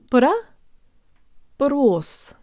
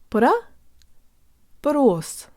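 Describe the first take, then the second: The two takes are said the same way.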